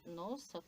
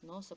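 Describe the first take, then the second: First: It is said with an ironic, mocking tone. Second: It is said with a frightened, fearful tone. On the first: The speaker does not really mean it. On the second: The speaker is afraid of them.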